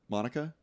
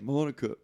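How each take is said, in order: First: Monica? with a rising, unsure tune; second-guess the name; doubting question. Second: Said in the usual way. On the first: Real, not acted. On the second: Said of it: "And he's like".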